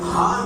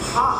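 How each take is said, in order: First: The h is a plain, soft h. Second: The h is a tense, throaty h. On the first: This letter is not in the word. The speaker calls it wrong. "हा नहीं है" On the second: This is the letter in the word. The speaker calls it right. "इसमें हा है"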